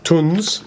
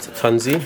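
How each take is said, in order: First: The name ends on the consonant sound. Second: The name ends with an added ee vowel. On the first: The speaker calls it right. "it's pronounced Tunz" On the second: The speaker calls it wrong. "not Tunzi. I pronounced it the wrong way"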